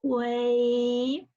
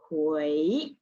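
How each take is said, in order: First: Level, stretched 回; first tone. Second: 回 starting low and rising; climbing second-tone 回. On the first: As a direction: draw out 回 flat as a first tone. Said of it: "start the H U I with first tone". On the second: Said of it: "we just stop at second tone". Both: Shown as a demonstration.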